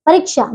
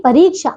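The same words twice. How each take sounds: First: परीक्षा with a short i, "pa-rik-sha"; mispronounced परीक्षा. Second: Said in the usual way. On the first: Shown as a demonstration. Teacher shows pupils the error, short "ri" in परीक्षा. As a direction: cut the middle vowel of परीक्षा short. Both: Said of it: "नहीं".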